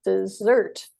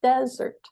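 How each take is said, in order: First: Dessert said with the second syllable stressed, de-SSERT; teacher modelling dessert as de-SSERT. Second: Desert said with the first syllable stressed, DE-sert; teacher modelling desert as DE-sert for contrast. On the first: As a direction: lean on the end of dessert, de-SSERT. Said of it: "stressed on the second syllable". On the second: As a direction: lean on the start of desert, DE-sert. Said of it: "whereas number one is desert". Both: Shown as a demonstration.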